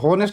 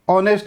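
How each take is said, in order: First: The word begins with an audible h sound. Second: The word begins directly with a vowel sound. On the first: The speaker calls it wrong. "इसको हॉनेस्ट मत पढ़ना" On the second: The speaker calls it right. "साइलेंट है"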